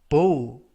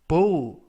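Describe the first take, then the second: No difference in how they are said.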